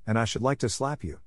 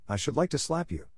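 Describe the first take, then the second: First: Held-back temper at near-usual pitch; understated, controlled annoyance; restraining herself. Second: Raised-pitch, contained flash of temper; mildly heated threat; with some fire. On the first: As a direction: keep the anger in check. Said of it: "Restraining herself". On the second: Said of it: "with some fire". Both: A narrator's reading.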